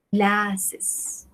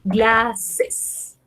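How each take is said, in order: First: Glasses repeated softer, falling; teacher softly repeating glasses. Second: Glasses said clearly; teacher modelling the plural glasses; model pronunciation. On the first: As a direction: echo glasses quietly. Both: Shown as a demonstration. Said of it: "yo digo".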